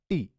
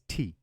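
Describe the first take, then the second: First: The t sound is soft and weak. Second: The t sound is strong and forceful. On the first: The speaker calls it wrong. "It's not T" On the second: The speaker calls it right. "we starkly and very strongly pronounce it as T"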